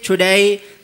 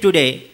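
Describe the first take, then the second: First: It is said in a drawn-out British accent. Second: It is said in an Indian English accent. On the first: "he says today, they're pulling little bit" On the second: "we Indians say in our accent today"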